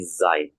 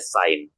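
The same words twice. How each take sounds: First: The word begins with a voiced z sound. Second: The word begins with a voiceless s sound. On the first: The speaker calls it right. "tapi Zain" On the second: The speaker calls it wrong. "bukan dibaca Zain"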